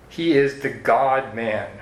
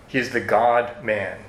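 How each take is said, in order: Both takes have the same delivery.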